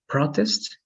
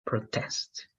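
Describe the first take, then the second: First: "protest" with PRO stressed, as the noun; stress on first syllable. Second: "protest" with TEST stressed, as the verb; light pro, weight on TEST in "protest"; stress on second syllable. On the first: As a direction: hit PRO in "protest", keep test light. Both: Shown as a demonstration. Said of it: "if the stress is in a different part".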